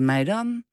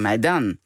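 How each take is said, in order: First: The pitch rises at the end. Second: The pitch falls at the end. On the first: It means bird droppings. The speaker calls it wrong. "als je vraagt, gaan wij omhoog" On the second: It asks for the bill. The speaker calls it right. "het moet op het eind naar beneden"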